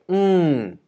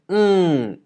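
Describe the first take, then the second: First: The pitch starts high and falls steeply. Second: The pitch starts high and falls steeply.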